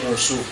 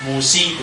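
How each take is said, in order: First: The name ends in a u sound. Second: The name ends in an i sound. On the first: "tidak boleh musuh" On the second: "Tidak boleh musi"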